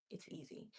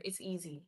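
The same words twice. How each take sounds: First: Whispered. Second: Said in the usual way. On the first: Real, not acted. Telling viewers it's easy, whispered to herself. Correcting herself about watch hours.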